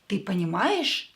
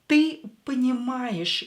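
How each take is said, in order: First: It has the intonation of a question. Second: It has the intonation of a plain statement. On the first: The speaker asks whether you understand. "we can make it a question, just using our intonation" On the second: The speaker states that you understand. "You understand"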